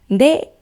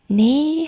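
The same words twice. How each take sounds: First: The word is said loudly and energetically. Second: The word is said softly and quietly. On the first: The bride is lively and full of energy. "크게" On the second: The bride is being modest and demure. "조용하게"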